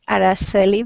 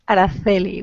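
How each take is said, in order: First: The c is said without a teeth sound. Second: The c is said with a teeth sound. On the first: "in South America, it will be say Araceli" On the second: "in Spain we say... We pronounce the C with a teeth sound"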